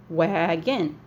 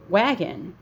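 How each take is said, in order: First: WAGON drawn out in two beats, wa-gon; clapped-out syllables. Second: Said in the usual way. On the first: Shown as a demonstration. Teacher shows how to clap out Wagon, syllable by syllable. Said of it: "but you can clap it out". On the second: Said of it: "So you can clap it out".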